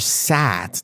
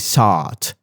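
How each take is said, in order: First: The vowel sounds like the one in sat. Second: The vowel sounds like the one in sought. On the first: This is the speaker's own preferred way. "but I prefer sat" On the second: This is how British speakers might say it. "In British, maybe they say sought"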